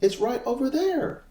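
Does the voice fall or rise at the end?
rise. The pitch rises at the end. The speaker seems unsure of the answer. The speaker calls it wrong. "It sounds like you're asking a question"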